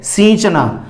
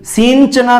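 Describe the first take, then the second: First: The vowel is nasalized with no n sound. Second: A full n sound follows the vowel. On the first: The speaker calls it right. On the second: The speaker calls it wrong.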